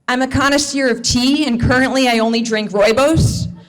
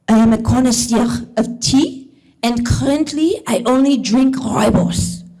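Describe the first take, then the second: First: It is spoken with an American accent. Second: It is spoken with a French accent. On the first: The man sounds pretentious. "in an American accent" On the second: The man sounds intriguing. "in a French accent"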